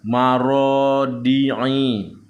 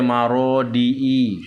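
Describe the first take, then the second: First: The ain is voiced as a guttural sound. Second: The ain becomes a plain i vowel. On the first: The speaker calls it right. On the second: The speaker calls it wrong.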